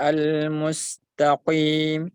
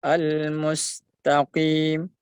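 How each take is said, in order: First: "al-mustaqim" with a too heavy q, like "qwim"; over-thick qaf. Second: "al-mustaqim" with the q only slightly thick, long ii; lighter qaf. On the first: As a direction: make the q of "al-mustaqim" overly thick. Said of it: "Jangan dibaca". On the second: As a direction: slowly chant "al-mustaqim" with a lightened q. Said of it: "sifat tebalnya berkurang sedikit". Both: Shown as a demonstration.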